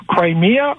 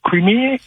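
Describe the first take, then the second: First: "Crimea" tried with a CRY first syllable; unsure pronunciation. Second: "Crimea" tried with a CREE first syllable; alternative pronunciation. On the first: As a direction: say "Crimea" as cry-MEE-uh, feeling for the word. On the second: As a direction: say "Crimea" starting cree, as a second guess. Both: Shown as a demonstration. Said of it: "what's that word you use".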